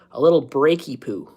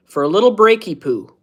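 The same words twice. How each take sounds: First: Said in the usual way. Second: Put-on playful, pitched-up baby talk; lightly babyish "breaky poo"; cutesy baby talk. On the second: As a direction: coo the silly word like to a toddler.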